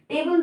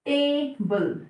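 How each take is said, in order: First: Said in the usual way. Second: table split into two separate beats; syllable by syllable. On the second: Shown as a demonstration. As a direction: say टे, then बल, slightly apart. (Table को दो हिस्सों में तोड़कर बोलें) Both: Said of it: "table दो syllable से मिलकर बना है".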